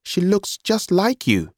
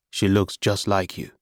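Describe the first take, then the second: First: Put-on high, drawn-out young brother's voice. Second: Said in the usual way. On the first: A narrator's reading. Brother's remark, high figure voice.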